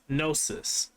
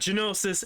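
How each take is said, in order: First: The G at the start is silent. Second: The G at the start is sounded. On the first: The speaker calls it right. "it's Gnosis" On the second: The speaker calls it wrong. "it's not Genosis"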